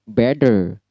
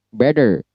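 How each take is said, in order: The two takes are said the same way.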